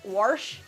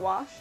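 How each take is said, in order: First: The word has a regional, old-fashioned pronunciation. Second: The word has a standard, everyday pronunciation. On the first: This is how the grandmother said it. "She also said wash" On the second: This is the usual way to say it. "not wash"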